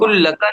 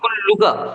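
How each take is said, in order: First: The vowel after the double L is a. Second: The vowel after the double L is u. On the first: The speaker calls it wrong. "कुल्लका नहीं" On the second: The speaker calls it right.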